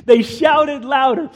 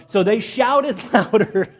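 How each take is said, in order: First: Higher, emphatic retake; raised-voice reading. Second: A laugh breaking into the line; amused reading. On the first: A narrator's reading. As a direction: lift the voice to read it out forcefully. Rereads the shouting line emphatically. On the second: Real, not acted. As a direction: read it while starting to laugh.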